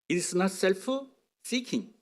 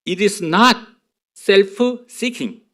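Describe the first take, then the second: First: It sounds fluent and native-like, hard to catch. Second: It sounds carefully clear, each word easy to catch. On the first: "제 발음이 엄청 좋아서 원어민 발음이라서 그래요" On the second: "이제 들리게 해드릴게요"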